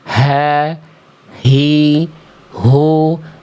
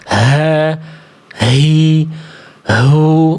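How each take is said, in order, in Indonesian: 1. Bunyi h diucapkan ringan dan tidak berlebihan. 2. Bunyi h diucapkan sangat berdesah dan berlebihan. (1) "Tidak berlebihan" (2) "Gak perlu berlebihan dibaca"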